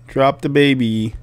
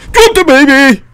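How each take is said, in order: First: Said in the usual way. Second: High, very loud yell; real shout. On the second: Real, not acted. Player orders game woman to drop baby, shouting. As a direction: shout the order at full volume.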